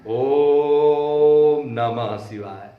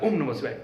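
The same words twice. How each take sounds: First: The vowel in Om is drawn out long. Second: The vowel in Om is short. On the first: The speaker calls it right. "ओम पर हम तीन गुना समय लगाते हैं" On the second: The speaker calls it wrong. "कोई नहीं बोलता है"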